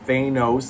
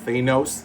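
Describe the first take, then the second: First: The name sounds close to the word 'anus'. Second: The name sounds close to the word 'anus'.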